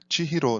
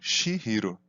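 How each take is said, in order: First: The name begins with a ch sound. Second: The name begins with an sh sound. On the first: The speaker calls it right. "atenção que a pronúncia é Chihiro" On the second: The speaker calls it wrong. "não Shihiro"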